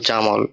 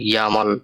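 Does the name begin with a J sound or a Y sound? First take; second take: J sound; Y sound. First: The name begins with a J sound. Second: The name begins with a Y sound. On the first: "কারোর নাম যদি হয় জামাল" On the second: "জার্মানিতে তার নামটা উচ্চারণ হয় ইয়ামাল"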